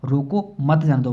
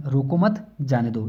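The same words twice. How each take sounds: First: "रोको", a break, then "मत जाने दो" as one group; pause after रोको. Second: Slow "रोको मत", a break, then "जाने दो"; pause after मत. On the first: Teacher showing the order not to let him go, pause after "रोको". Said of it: "मतलब उसको नहीं जाने की आज्ञा". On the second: Teacher showing the order to let him go, slow with pause after "मत". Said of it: "भाई नहीं, इसको रोको मत". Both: Shown as a demonstration.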